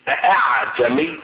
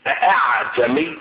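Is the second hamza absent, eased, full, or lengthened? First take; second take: full; full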